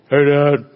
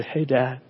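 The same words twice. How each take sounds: First: Imitated son's offhand greeting; a firm, level hello, mimicking a son; Landon. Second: Soft, gentle greeting to a father; imitated affectionate daughter. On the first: Son keeping his distance from dad, offhand mimicked greeting. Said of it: "Now, Landon, my son". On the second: Grown daughter climbing into dad's lap, soft and affectionate. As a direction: greet Dad softly, as a loving daughter. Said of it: "will kinda just get in my lap and say".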